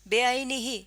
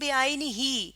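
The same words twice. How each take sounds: First: The final vowel is short. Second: The final vowel is long. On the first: "अगर मैं यहाँ पर सिर्फ जेर लगा देती हूँ तो ये क्या बनेगा?" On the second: "यानी दो जेर की आवाज है।"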